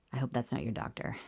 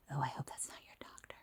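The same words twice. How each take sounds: First: Said in the usual way. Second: Hushed, confidential whisper. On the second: Retold or imitated. Mom to her child about the passing old man, whispered. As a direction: whisper it quickly under your breath. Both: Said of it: "sorry, I whispered that".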